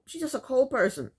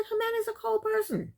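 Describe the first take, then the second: First: Said in the usual way. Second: Hammed-up imitation, "Jimena's a cold person." with a falling "cold"; mock mother's verdict. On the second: Mother telling Mike about her daughter, mock disapproving. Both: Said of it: "But she didn't say the way I'm saying it".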